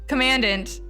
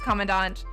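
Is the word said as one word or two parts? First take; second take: two parts; one word. First: It is said as 'command' plus 'ant'. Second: It is said as one blended word. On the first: The speaker calls it wrong. "I read the command part and then I add the ant part" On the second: The speaker calls it right. "I know that it is commandant"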